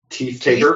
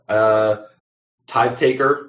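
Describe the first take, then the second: First: The first word has a long 'ee' vowel. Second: The first word has a long 'eye' vowel. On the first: "I've heard teeth taker"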